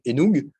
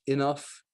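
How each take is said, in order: First: It is read out French-style, following its spelling. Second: The ending is said like 'off', English style. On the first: The speaker calls it wrong. "quelque chose de logique pour un francophone du style Enoug" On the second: The speaker calls it right. "il y a rien qui dit que ça fait off, enough"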